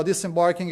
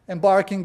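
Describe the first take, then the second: First: Disembarking said as the fix, with the dis- added; corrected word. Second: Embarking said as a slip, stressed firmly; embarking, louder, before the correction; wrong word first. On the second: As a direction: start with the mistaken word embarking. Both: Real, not acted. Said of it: "you know, disembarking".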